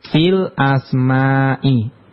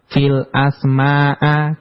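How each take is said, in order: First: The last word ends in an i vowel. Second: The last word ends in an a vowel. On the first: The speaker calls it right. "kenapa dibaca al-asma'i" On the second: The speaker calls it wrong. "enggak dibaca"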